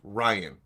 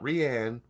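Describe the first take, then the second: First: The name sounds like Ryan. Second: The name sounds like Rianne. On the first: The speaker calls it right. "it's pronounced Ryan" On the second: The speaker calls it wrong. "not Rianne"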